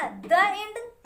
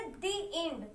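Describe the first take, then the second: First: द end with a short "duh", the wrong way; wrong "duh end". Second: दी end with a long "dee"; the end as "dee". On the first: Teacher showing students the wrong द end. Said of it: "द end तो बोलते नहीं". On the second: Teacher to class, दी end with long "ee". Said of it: "इसका pronunciation क्या करेंगे". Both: Shown as a demonstration.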